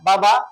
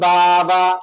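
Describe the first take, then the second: First: The vowels are kept short, not drawn out. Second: The vowels are drawn out long. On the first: The speaker calls it right. "টান দিয়ে বলি না" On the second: The speaker calls it wrong. "এখন যদি টান দেই বাবা, তাহলে ভুল।"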